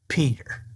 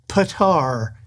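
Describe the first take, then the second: First: The first vowel sounds like 'ee'. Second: The first vowel sounds like 'ah'. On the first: The speaker calls it right. "it's just Peter" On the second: The speaker calls it wrong. "It's not Patar"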